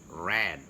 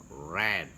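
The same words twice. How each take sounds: No difference in how they are said.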